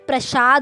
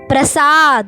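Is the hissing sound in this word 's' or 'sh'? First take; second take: sh; s. First: The hissing sound is an sh. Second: The hissing sound is a plain s. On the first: The speaker calls it wrong. "अगर आप इसे गलत उच्चारण करेंगे" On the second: The speaker calls it right. "ये बिल्कुल सही शब्द है"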